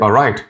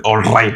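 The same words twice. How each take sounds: First: "all right" as a smooth "aw-rite", R untrilled; soft R. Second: "all right" with a hard trilled R. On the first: Teacher showing the better way, smooth "all right". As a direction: glide softly through "all right" as "aw-rite". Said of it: "It should more be like". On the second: Teacher showing the wrong way, rolled R in "all right". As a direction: roll into "right" heavily in "all right". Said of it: "You shouldn't pronounce it like that". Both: Shown as a demonstration.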